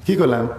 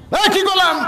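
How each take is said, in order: First: Said in the usual way. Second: High, sharp call for a response; raised-pitch preacher's challenge; calling out to crowd. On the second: Real, not acted. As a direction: demand the congregation's answer, pitched way up. Calls out for audience response.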